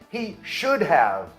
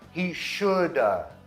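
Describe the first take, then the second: First: The word 'have' is pronounced in full. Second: The word 'have' is reduced to a weak 'a'.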